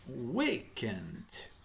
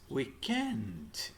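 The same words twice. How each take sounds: First: The stress is on the first syllable. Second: The stress is on the second syllable. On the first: This is the American way of saying it. "In American English, the stress is in the first syllable" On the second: This is the British way of saying it. "And in British English, it's weekend"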